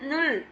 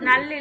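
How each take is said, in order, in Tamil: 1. உயிரெழுத்து வட்டமான 'u' ஒலி. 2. உயிரெழுத்து திறந்த 'a' ஒலி. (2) "நல் இல்ல"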